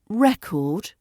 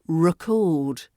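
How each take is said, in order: First: The stress is on the first syllable. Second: The stress is on the second syllable.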